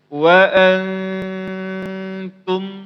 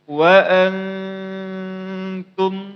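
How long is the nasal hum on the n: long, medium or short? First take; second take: medium; medium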